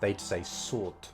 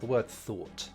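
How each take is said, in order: First: The word begins with an s sound. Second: The word begins with a th sound. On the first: The speaker calls it wrong. "they'll substitute the th sound for s sounds" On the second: The speaker calls it right.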